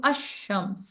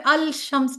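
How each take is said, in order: First: अशम्स with the lam dropped into a doubled sh; lam assimilated. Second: अल शम्स said with a full audible lam; wrong lam sounded. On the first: Teacher gives the correct reading अशम्स, lam silent. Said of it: "मैं कहती हूँ अशम्स". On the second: Teacher shows the wrong reading, अल शम्स with the lam sounded. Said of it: "तो मैं अल शम्स नहीं पढ़ती". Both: Shown as a demonstration.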